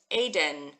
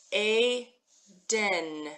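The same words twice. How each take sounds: First: Said in the usual way. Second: ADEN split slowly into AY ... DEN; sounded out. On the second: Shown as a demonstration. Teacher reading the letters for learners, ADEN slowly as AY, DEN. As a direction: sound out ADEN syllable by syllable, drawn out. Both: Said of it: "So we've got here".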